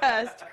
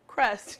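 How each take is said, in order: First: The R sound after the K is missing. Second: The R sound after the K is present. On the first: The speaker calls it wrong. "not cust" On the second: The speaker calls it right.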